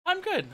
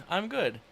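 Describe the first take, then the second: First: Flustered high-pitched I'm good; high-pitched laughing protest. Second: Said in the usual way. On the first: Real, not acted. Laughed off by friends, a high flustered I'm good. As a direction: squeak it out high, still laughing.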